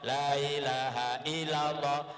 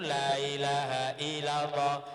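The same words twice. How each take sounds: The two takes are said the same way.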